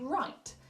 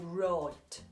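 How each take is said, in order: First: It is said in a general British accent. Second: It is said in a Birmingham accent.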